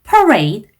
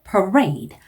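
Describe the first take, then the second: First: The stress is on the first syllable. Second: The stress is on the second syllable. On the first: The speaker calls it wrong. "parade 아니고" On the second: The speaker calls it right. "강세가 앞쪽이 아니라 뒤쪽에 들어가요"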